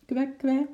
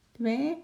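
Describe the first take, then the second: First: High squeaky penguin quack; penguin squeak. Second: Single high penguin quack with a rise; a small questioning squeak. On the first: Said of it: "piepte de makke". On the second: Penguin answers again. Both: A narrator's reading.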